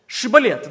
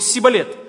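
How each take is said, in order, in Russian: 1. Слово начинается со звука 'sh'. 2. Слово начинается со звука 's'.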